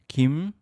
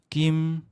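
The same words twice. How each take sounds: First: The pitch rises slightly. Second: The pitch stays level and unmarked. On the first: "살짝 올라가는 성조" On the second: "첫째 성조가 아무것도 없는 성조예요"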